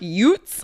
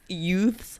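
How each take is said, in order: First: The word is said with a New York t sound. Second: The word is said with a plain th sound. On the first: "it sounds like" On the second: "like adolescents"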